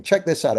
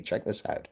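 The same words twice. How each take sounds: First: Said in the usual way. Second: The same words now whispered, breathy and hushed. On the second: Shown as a demonstration. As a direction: drop to a secret whisper.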